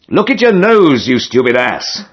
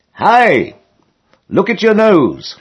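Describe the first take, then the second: First: Louder call. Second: High, carrying call across the lock. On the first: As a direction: call it again, louder and ruder. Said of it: "came the same voice again, louder". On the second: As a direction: shout a warning from behind. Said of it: "I heard someone behind me call out". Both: A narrator's reading.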